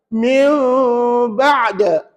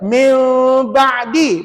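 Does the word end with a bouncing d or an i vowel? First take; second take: bouncing d; i vowel. First: The word ends in a short bouncing d sound. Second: The final d is followed by an i vowel. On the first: The reader stops on this word. "Ada bunyi de" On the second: The reading continues without stopping. "Biasa kita baca min ba'di"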